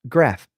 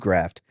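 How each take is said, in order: First: The word ends on an f sound, no t. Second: The word ends with an added t sound. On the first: The speaker calls it right. "That's better" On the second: The speaker calls it wrong. "There's no T in graft"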